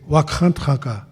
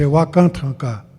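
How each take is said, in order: First: The k sound is guttural and raspy. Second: The k sound is plain, without friction. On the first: It names the great power in creation. The speaker calls it right. "when we say" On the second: It means something old and worn out. The speaker calls it wrong. "ka is something that's old and worn out"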